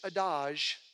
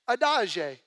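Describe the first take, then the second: First: It is said in a French-sounding accent. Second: It is said in an Italian-sounding accent.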